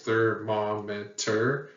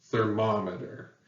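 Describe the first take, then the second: First: Thermometer slowly split into four syllables. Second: Thermometer as one word, stressed on MOM; ther-MOM-eter, joined up with second-syllable stress. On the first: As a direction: count out ther-mom-e-ter, slowly. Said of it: "four syllables". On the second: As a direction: put the accent on MOM in thermometer. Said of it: "the second one has the stress". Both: Shown as a demonstration.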